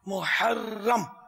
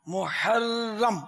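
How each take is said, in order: The two takes are said the same way.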